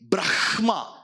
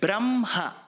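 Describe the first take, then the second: First: The h sound comes before the m. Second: The h sound comes after the m. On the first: The speaker calls it wrong. "But you don't say Brahma" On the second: The speaker calls it right. "You say Brahma"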